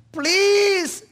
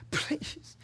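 First: High, loud, desperate plea; a tormented man crying out high and loud; anguished cry. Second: Desperate whisper. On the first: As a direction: beg from the depths of torment. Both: Acted. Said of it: "he cried out".

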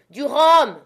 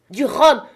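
First: Loud, high bark of a demand; demanding rum. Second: Loud, high insistent call; repeated demand. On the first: Wounded captain yelling at Jim for rum, loud demand. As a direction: roar for rum in a changed gruff voice. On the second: Wounded captain repeating his order to Jim, loud insistence. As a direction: hammer the demand for rum again. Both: A narrator's reading. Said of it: "répéta-t-il".

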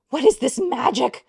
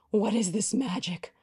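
First: High, loud disbelieving question; real astonished exclaim. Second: Said in the usual way. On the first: Real, not acted. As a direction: shout it in wonder. First take loud.

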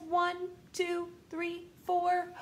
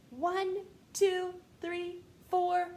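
No difference in how they are said.

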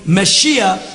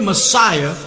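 First: Messiah said the Hebrew way, "meh-SHEE-ah"; Hebrew pronunciation. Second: Said in the usual way. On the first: Shown as a demonstration. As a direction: give Messiah a SHEE in the middle. Hebrew form set beside English word.

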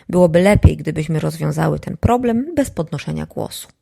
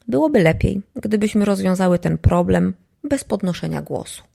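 First: Elegant rebuke. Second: Poised, softer aristocratic reproach; elegant rebuke. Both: Shown as a demonstration. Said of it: "takie skarcenie eleganckie, takie arystokratyczne".

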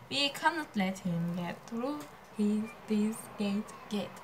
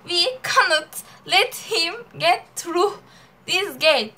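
First: Quiet, slow word-by-word English; slow read-out. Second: Loud, emphatic Turkish-accented English. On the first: Rereading the gate line to write it, slow and quiet. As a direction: read it out softly and slowly as if writing. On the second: Showing friend "al sana Türk aksanı", a loud Turkish accent. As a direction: hit every word hard in a heavy Turkish accent. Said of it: "Ha, al sana Türk aksanı". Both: Shown as a demonstration.

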